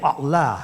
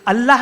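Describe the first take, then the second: First: The word is said deep from the throat. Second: The word is said lightly, without throat depth. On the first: The speaker calls it right. "अल्लाह है" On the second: The speaker calls it wrong. "अल्लाह नहीं है"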